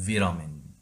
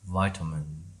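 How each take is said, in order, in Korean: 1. 영국식 발음이에요. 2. 미국식 발음이에요. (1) "영국식은" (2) "미국식은"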